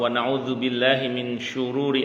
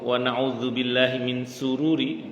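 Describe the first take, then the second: First: The word after 'min' starts with 'sh'. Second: The word after 'min' starts with 's'. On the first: We seek refuge from the evil of ourselves. The speaker calls it right. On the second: We seek refuge from our own happiness. The speaker calls it wrong.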